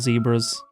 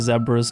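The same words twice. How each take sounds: First: It is pronounced the American way. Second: It is pronounced the British way. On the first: This is how the other country says it. The speaker calls it wrong. "not zebras" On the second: This is how the speaker's own country says it. The speaker calls it right. "We also say zebras"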